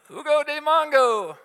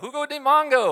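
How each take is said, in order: First: It is said loudly, almost shouted. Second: It is said at normal loudness.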